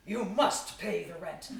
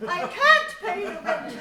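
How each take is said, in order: First: Slow hammy villain demanding rent; mustache twirling villain. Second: High, loud pleading heroine; damsel in distress. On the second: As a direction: wail it like a helpless maiden. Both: Acted.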